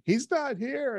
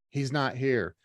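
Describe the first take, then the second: First: Higher-pitched imitation of a crying caller; mock tearful. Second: Said in the usual way. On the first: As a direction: lightly imitate a tearful, panicked report. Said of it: "she calls me crying". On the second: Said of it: "she's texting me".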